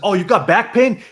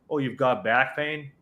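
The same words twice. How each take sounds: First: It is said with lively, energetic, varied intonation. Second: It is said in a flat, monotone, bored way. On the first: The speaker seems inexperienced and untrustworthy. The speaker calls it wrong. "they had great tonality, great energy" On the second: The speaker has done this many times and is trustworthy. The speaker calls it right. "completely monotone"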